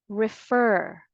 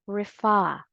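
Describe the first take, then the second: First: "Refer" as rih-FUR, final r sounded; American pronunciation. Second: "refer" as rih-FAH, final r dropped; British pronunciation. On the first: Teacher pronouncing together with learners, American "Refer", rih-FUR. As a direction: stress the second syllable of "Refer", keep the r. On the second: Teacher pronouncing together with learners, British "refer", rih-FAH. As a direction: stress a long open FAH in "refer". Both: Shown as a demonstration. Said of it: "let's pronounce it together".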